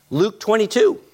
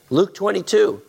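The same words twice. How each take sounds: The two takes are said the same way.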